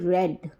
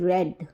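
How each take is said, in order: First: The vowel is a short 'e' sound. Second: The vowel is a short 'e' sound.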